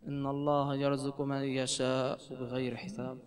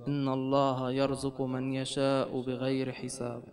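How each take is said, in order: Both takes have the same delivery.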